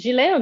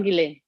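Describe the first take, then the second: First: "Gillet" said zhee-LAY, with a soft zh; French-style "Gillet", zh start and silent T. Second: "Gillet" said ghee-LAY, with a hard g; "Gillet" starting like "geese", silent T. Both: Shown as a demonstration. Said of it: "Is it Gillet or Gillet?".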